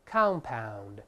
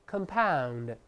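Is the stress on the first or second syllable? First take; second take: first; second. First: The stress is on the first syllable. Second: The stress is on the second syllable. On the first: It is used as a noun or adjective. "发音拼写不变，再来一遍compound" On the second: It is used as a verb. "读一下动词原形compound，这重音后移了"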